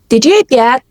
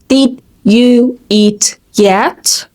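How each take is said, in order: First: The words are reduced and run together quickly. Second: Each word is said clearly and separately. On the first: "when a native speaker wants to say this sentence, you hear something like" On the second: "We learned the phrase"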